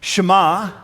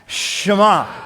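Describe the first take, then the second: First: It is said plainly, without extra energy. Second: It is said with energetic, emphatic gusto.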